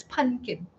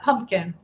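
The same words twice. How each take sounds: First: "pumpkin" said as "punkin", no m or p in the middle; pronunciation "punkin". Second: "pumpkin" said fully as "PUMP-kin", m and p clear; pronunciation "pump-kin". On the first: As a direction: say "pumpkin" like "PUN-kin", dropping the m. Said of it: "pumpkin, not pumpkin". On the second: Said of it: "not pumpkin". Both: Shown as a demonstration.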